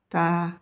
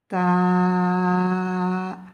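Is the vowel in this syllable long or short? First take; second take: short; long. First: The vowel is short and clipped. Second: The vowel is drawn out long.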